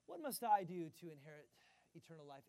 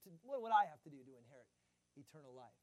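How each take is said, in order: First: Said in the usual way. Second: Fast, with "I" hit loud; stress on I. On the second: Shown as a demonstration. Preacher shows where the scribe puts stress. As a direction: press the word "I" and rush on. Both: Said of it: "emphasis isn't on the word "I".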